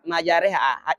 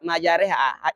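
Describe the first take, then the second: First: The vowel after 'r' sounds like 'e'. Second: The same.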